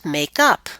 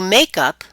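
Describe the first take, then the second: First: The stress is on the second part. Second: The stress is on the first part. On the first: It is a verb meaning to reconcile. "Let's try the phrasal verb first" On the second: It is a noun meaning cosmetics. "And the compound noun would be"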